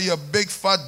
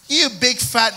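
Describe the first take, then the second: First: It is spoken in a Jamaican accent. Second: It is spoken in an American accent. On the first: The speaker calls it right. "I put on my Jamaican accent and I give her" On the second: The speaker calls it wrong. "Imagine I say that in American"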